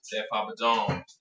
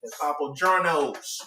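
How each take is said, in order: First: Slow drawn out. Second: That Papa John's stretched slow and loud; louder, slow drawn-out jingle. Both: Shown as a demonstration.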